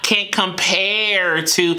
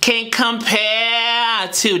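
First: The R at the end of compare is pronounced. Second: The R at the end of compare is dropped. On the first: "not can't compare to" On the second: "that R was gone"

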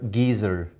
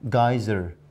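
First: The word is said in a British accent. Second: The word is said in an American accent. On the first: "we use the word geezer" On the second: "But look at the Americans"

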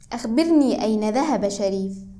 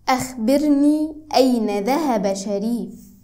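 First: It is said at normal conversational speed. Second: It is said slowly and clearly.

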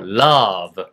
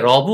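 First: The vowel in love is drawn out long. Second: The vowel in love is short. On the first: The speaker calls it right. "러를 길게 하시는 게" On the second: The speaker calls it wrong. "이거 절대 love 하지 마시고"

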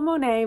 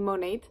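First: The name ends without a T sound. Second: The name ends with a clear T sound. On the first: The speaker calls it wrong. "I always want to call it Monet" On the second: The speaker calls it right. "but you do pronounce the T"

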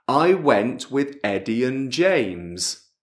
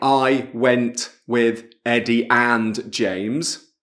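First: The word 'and' is reduced to an n sound. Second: The word 'and' is said fully with its vowel. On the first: The speaker calls it right. "la A, la D non c'è" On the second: The speaker calls it wrong. "non è I went with Eddie and James"

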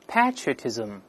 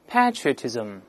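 First: It is said with a British pronunciation. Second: It is said with a British pronunciation.

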